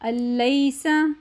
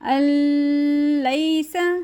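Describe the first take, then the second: First: The n merges into a doubled l without nasality. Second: The n merges into l with a nasal hum. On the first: The speaker calls it right. "तशदीद के साथ मिलाना है लेकिन गुन्ना नहीं करना" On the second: The speaker calls it wrong. "ऐसे भी हमने नहीं पढ़ना क्योंकि हमने गुन्ना नहीं करना"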